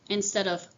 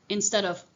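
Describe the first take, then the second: No difference in how they are said.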